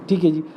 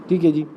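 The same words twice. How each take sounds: No difference in how they are said.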